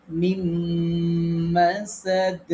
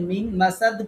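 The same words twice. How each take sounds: First: মিম মাসাদ with the ম held long and humming; recitation demo. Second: Said in the usual way. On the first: Shown as a demonstration. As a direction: draw out "মিম মাসাদ" slowly, syllable by syllable. (মিম মাসাদ টেনে, গুন্নাহ করে পড়া) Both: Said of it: "এই যে মিম মাসাদ পড়লাম".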